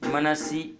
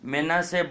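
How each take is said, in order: First: It is said 'man-si' with a final i. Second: It is said 'me-na-se' with a final e. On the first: The speaker calls it wrong. "मनसी गलत है" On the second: The speaker calls it right. "मेनासे बोलना चाहिए"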